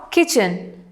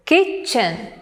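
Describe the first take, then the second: First: Said in the usual way. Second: "kitchen" split in two, KIT stressed; stress on first syllable. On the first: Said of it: "The word kitchen". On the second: Shown as a demonstration. Teacher demonstrating syllable stress, "kitchen" split with KIT stressed. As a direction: say "kitchen" as KIT, chen, leaning on KIT. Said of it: "the stress is on the first syllable".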